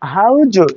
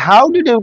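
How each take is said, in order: First: 'Did you' blends into a single 'ju' sound. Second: Each word is said separately and fully.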